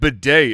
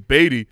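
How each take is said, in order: First: The name sounds like the word bidet. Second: The name sounds like the name Beatty. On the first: This is how the announcers said the name. "calling him Bidet?" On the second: This is how the hosts assumed the name was said. "It's Beatty"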